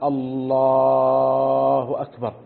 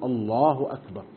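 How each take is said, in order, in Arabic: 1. يُمَدّ صوت اللام في الكلمة الأولى. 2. لا يُمَدّ أي صوت في الكلمة الأولى. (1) "إن مد اللام في لفظ الجلالة" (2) "السنة ألا يمد"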